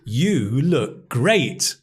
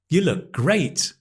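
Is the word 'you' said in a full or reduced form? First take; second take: full; reduced. First: Every word, including 'you', is fully stressed. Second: The word 'you' is unstressed and reduced. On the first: "We're emphasizing every word" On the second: "most of the time, we would say, ... Because the weak form of you"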